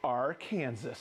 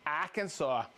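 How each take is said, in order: First: Arkansas said ar-KAN-zuh, like the state Kansas. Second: Arkansas said AR-kan-saw, ending in saw. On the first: Host jokingly offering the other Arkansas, ar-KAN-zuh. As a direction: say Arkansas rhyming with Kansas, lower. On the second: Host reading viewer names, first Arkansas said as AR-kan-saw. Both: Shown as a demonstration.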